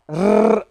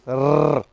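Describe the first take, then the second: First: The r is made the English way. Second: The r is made the French way. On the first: The speaker calls it right. "not like French people" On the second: The speaker calls it wrong. "They usually pronounce like this"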